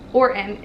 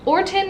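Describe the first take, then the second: First: The middle T sound is dropped or softened. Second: The middle T sound is clearly pronounced. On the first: "in America" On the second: "would be a cute way to pronounce it"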